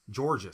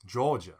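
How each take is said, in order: First: Southern "Georgia" with the R clearly sounded; Texan accent on "Georgia", R kept; rhotic Southern. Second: Southern "Georgia" with the R dropped; non-rhotic Southern. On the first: Showing co-host the R, rhotic Southern "Georgia". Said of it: "So I'm still saying the R". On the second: Demonstrating for co-host, non-rhotic Southern "Georgia". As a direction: drop the R in "Georgia", old Southern style. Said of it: "with a non-rhotic Southern accent, it might sound like this". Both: Shown as a demonstration.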